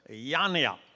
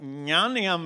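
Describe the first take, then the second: First: The name begins with a plain y sound. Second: The name begins with an ny sound. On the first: It asks whether someone is an elephant. The speaker calls it wrong. "some people would say, this is Mr. Yanya. Yanya means in my language, are you an elephant?" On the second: It names a man of wisdom. The speaker calls it right. "But Nyanya means a man of wisdom"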